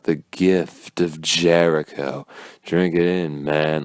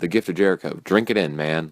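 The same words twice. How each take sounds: First: The words are slurred and drawn out. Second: The words are said plainly and crisply. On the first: The speaker calls it right. "the way he like he slurs everything out" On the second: The speaker calls it wrong. "if he just said"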